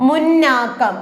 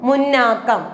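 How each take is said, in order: The two takes are said the same way.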